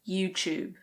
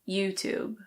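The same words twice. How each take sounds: First: A British accent with a ch sound. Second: It is said in an American accent. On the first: "So the T becomes a ch" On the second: "In American English, it's usually YouTube"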